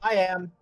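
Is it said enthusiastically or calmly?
enthusiastically. It is said with much enthusiasm.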